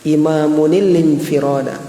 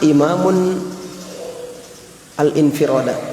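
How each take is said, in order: First: The two words are joined with a linking -il. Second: The two words are read separately, without linking.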